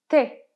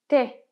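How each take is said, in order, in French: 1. La voyelle de 'tu' est supprimée. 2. La voyelle de 'tu' est supprimée.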